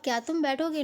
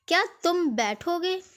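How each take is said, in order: First: It is said in a neutral tone. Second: It is said in an angry tone.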